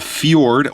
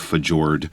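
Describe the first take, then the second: First: The j is said as a Y sound. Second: The j is said as a hard J sound. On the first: The speaker calls it right. "so it's kind of a Y sounded" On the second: The speaker calls it wrong. "Please do not say a fjord, because that just sounds weird"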